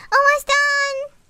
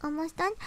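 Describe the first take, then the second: First: Loud, high, slow shout of almost done; shouted reply. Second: Said in the usual way. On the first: Real, not acted. Shouting back to someone off-mic, loud and high. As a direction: yell Almost done across the room, drawn out.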